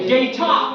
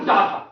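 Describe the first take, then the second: First: The first vowel sounds like eh. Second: The first vowel sounds like ah. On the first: The speaker calls it right. "এই উচ্চারণ কি হবে" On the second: The speaker calls it wrong. "আমরা বলি বায়ু ডাটা ... সঠিক না ভুল"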